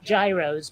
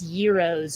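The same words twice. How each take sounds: First: The word is said in an English way. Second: The word is said in the Greek way. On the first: The speaker calls it wrong. "not gyros" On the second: The speaker calls it right. "I had to be taught that it's gyros"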